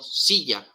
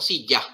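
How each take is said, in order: First: The stress is on the first syllable. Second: The stress is on the second syllable. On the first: The speaker calls it right. "cargo la voz sobre esta sílaba, sobre la sí" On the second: The speaker calls it wrong. "no digo silla"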